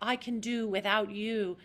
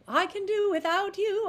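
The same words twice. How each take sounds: First: It sounds tense and pinched. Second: It sounds open and light.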